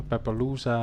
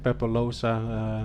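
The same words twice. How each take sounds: First: "Pepe Losa" with Losa as LOO-sa, rising; second guess at "Pepe Losa", OO in Losa; alternative name pronunciation. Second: "Pepe Losa" said slowly, Losa as LOH-sa; name pronunciation attempt. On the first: Host unsure of a racer's name, tentative "Pepe Losa" with LOO-sa. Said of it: "sometimes hard to pronounce". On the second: Host checking a racer's name, slow careful "Pepe Losa" with LOH-sa. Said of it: "I hope we pronounce your name correctly". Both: Shown as a demonstration.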